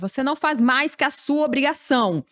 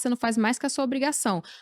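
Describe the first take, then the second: First: It is said in a harsh, cold tone. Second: It is said in a gentle, caring tone. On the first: The effort is dismissed as worthless. The speaker calls it wrong. "da pior forma" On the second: The duty is explained with care. The speaker calls it right. "é o jeito de falar"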